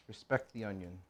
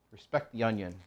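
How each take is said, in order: First: Softer murmured repeat of "Respect the onion"; hushed repeat of "Respect the onion"; soft echo. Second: Said in the usual way. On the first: Shown as a demonstration. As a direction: say it again under your breath, reverently.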